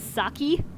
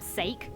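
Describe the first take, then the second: First: The word ends in a long 'ee' sound. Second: The word starts with an 'ay' vowel sound. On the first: "They either say it as saki" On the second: "It's so cringeworthy"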